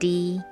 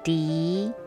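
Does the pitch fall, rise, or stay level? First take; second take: level; rise. First: The pitch stays level throughout. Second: The pitch rises at the end.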